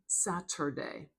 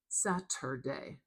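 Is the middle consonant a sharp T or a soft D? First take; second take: sharp T; sharp T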